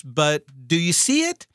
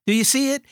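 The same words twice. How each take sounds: First: Said in the usual way. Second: Much higher repeat, stress on see; pressing the question. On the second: Shown as a demonstration. Preacher urging the congregation to grasp it, pitched high and stressed. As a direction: ask again, pushing the word see up high.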